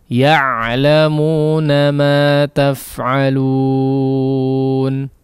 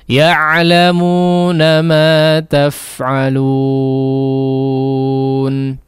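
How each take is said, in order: Both takes have the same delivery.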